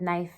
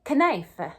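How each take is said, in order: First: The word has its present-day pronunciation. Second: The word has an older, early modern pronunciation. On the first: "instead of" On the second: "in early modern English, you would say"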